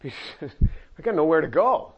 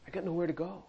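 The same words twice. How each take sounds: First: Slow, drawn-out helpless admission; slow resigned Peter. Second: Softer, sinking repeat of the admission; quiet resigned Peter. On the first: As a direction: say it slowly like you've run out of options. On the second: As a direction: let it fall away almost to yourself. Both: Pretend. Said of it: "Peter's answer voiced".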